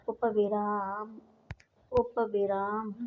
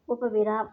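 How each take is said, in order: First: उपविराम spoken slowly, every syllable drawn out; slow dictation. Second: Said in the usual way. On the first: Shown as a demonstration. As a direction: spell out उपविराम slowly for the class. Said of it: "teacher dictating term slowly". (उपविराम धीरे-धीरे, रुक-रुककर बोलना) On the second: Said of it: "teacher repeats term normally".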